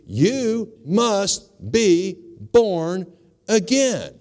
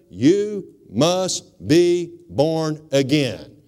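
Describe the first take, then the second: First: Very slow, higher, stretched out; drawn-out emphasis. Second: Each word drawn out slowly; slow and deliberate. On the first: Preacher hammering home the five words, stretched and higher. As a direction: lean on every word, drawing it out. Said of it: "We can't emphasize this anymore". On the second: Preacher dictating the key verse, very slowly. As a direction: spell it out slowly so they can write it down. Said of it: "Write that down". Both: Shown as a demonstration.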